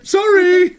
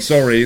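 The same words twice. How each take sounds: First: It is said in a put-on character voice. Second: It is said in a natural speaking voice. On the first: The speaker calls it wrong. "Don't know why I'm doing the voice again" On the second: The speaker calls it right. "I mean"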